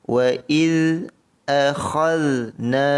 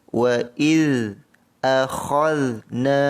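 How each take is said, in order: Both takes have the same delivery.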